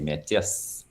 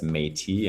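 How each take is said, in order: First: The final S sound is pronounced. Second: The final S sound is silent. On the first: This is how it is said in French. "but in French you say" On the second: This is how it is said in English. "in English and don't pronounce the S"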